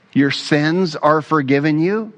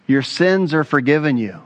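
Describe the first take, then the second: First: "forgiven you" lifting into a question; questioning echo. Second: "forgiven you" settling down in a falling close; plain statement. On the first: Scribes repeating Jesus's words, "forgiven you" rising in doubt. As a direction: query it, rising to the end on "you". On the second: Jesus to the paralytic, "forgiven you" falling as a pronouncement. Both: Retold or imitated.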